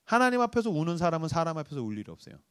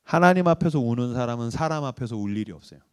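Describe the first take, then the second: First: Soft repeat. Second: Sincere quote. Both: Acted. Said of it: "제가 붙들고 있는 문구가 있어요".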